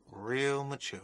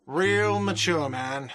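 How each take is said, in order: First: Said in the usual way. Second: Drawn-out, whiny and mocking; whiny shout. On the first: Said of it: "repeats own phrase". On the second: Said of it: "a whiny voice shouts".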